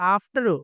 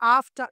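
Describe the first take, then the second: First: The final r is sounded with an added vowel. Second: The final r is silent. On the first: The speaker calls it wrong. "ఇలా చెప్పకూడదు" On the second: The speaker calls it right. "ఇలా చెప్పాలి"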